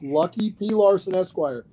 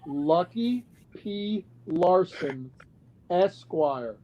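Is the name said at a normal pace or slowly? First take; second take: normal; slowly. First: The name is said at a normal pace. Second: The name is said slowly and deliberately.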